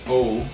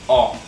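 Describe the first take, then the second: First: The O is said deep. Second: The O is said louder. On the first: The speaker calls it wrong. "it's not deep as O" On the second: The speaker calls it right. "it's quite uh, um, more loud. It's like O"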